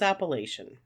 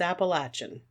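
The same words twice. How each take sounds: First: It uses the northern regional pronunciation. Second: It uses the southern regional pronunciation. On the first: The speaker is from further north. "If you're further north" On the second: The speaker is from further south. "If you're further south"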